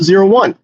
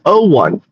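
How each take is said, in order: First: The first digit is said as 'zero'. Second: The first digit is said as 'oh'. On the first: The speaker calls it right. "You didn't output zero one" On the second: The speaker calls it wrong. "What what I'm hearing is O, not zero"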